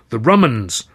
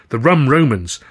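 First: "The Rumans" with Rum and Romans run into one word, Roo-mans; blended pun. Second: "The Rum Romans" with Rum and Romans as two clear words; wordplay name. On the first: Narrator fusing the act name into one word, The Rumans. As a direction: squeeze "The Rumans" into a single punning word. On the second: Narrator trying out the act name, stressing Rum Romans. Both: Shown as a demonstration.

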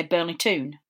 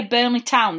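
First: Burnley Toon with Toon said as a long oo; Geordie Toon. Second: Said in the usual way. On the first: Shown as a demonstration. Host contrasting his town with the Geordie Toon. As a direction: Toon rhymes with moon, not with down. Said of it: "they say Burnley Toon". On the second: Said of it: "when we say Burnley Town".

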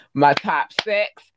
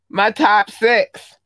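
First: Said in the usual way. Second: Louder, higher, drawn-out shout-out; emphatic announcement. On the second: Real, not acted. Podcaster presenting favorite listener countries, loud proud announcement. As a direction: announce it big and slow.

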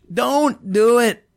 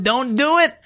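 First: Drawn out, high, loud; slow loud warning. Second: Higher, louder warning; Don't do it, pushed up high; rising warning. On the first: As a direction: stretch out Don't do it loudly. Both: Pretend. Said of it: "and say".

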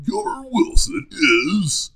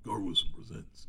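First: Slow, high, loud trailer announcer; trailer guy voice. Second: Trailer guy voice. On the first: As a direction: stretch it out like a movie trailer. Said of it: "my trailer guy voice". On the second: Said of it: "not Gar Wilson is". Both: Shown as a demonstration.

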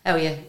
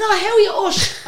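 First: Said in the usual way. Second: Very high, laughing mock gush; gushing greeting. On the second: Singer greets [name] once told who he is, gushing. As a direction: greet him in an exaggerated squeal.

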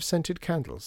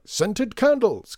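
First: Said in the usual way. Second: High, loud, stretched-out exclamation; delighted cry. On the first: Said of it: "said Lydia". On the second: A narrator's reading. Shopkeeper seizing on Lydia's request, crying out grandly. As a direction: sing out the words like a showman. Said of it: "cried Mister M".

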